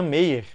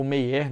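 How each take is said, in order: First: First way of saying "Meyer"; alternative pronunciation. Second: Second way of saying "Meyer"; alternative pronunciation. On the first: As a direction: say "Meyer" as one possible pronunciation of the surname. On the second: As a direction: offer "Meyer" as the other possible pronunciation, unsure. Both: Shown as a demonstration. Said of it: "não sei como é que pronuncia".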